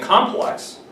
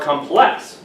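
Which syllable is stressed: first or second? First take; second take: first; second. First: The stress is on the first syllable. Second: The stress is on the second syllable. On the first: "the stress could be in the first syllable saying complex" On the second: "It could be in the first syllable or the second syllable"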